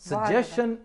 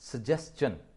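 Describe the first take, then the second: First: The middle is pronounced with a 'sh' sound. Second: The middle is pronounced with an 'st' sound. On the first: The speaker calls it wrong. "सजेशन is no word, it is no pronunciation" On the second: The speaker calls it right. "That is सजेस्टन"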